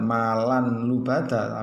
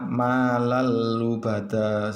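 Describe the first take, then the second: First: The n is kept before the l. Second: The n merges into the l sound. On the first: The speaker calls it wrong. "bukan malan lubada, tapi salah itu ya" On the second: The speaker calls it right. "Yang betul adalah malal lubada"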